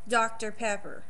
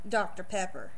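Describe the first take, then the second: First: It is said with a strong Texas twang. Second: The same.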